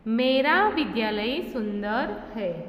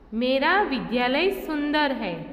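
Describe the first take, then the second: First: The stress is on मेरा. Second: The stress is on सुंदर.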